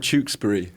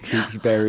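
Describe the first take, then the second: First: The ending is a reduced British-style '-bury'. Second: The ending is said like 'berry' in American style. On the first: "I would say" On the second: "I love how Americans say it"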